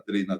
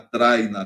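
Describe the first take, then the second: First: It is said in a Brazilian Portuguese accent. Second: It is said in a European Portuguese accent.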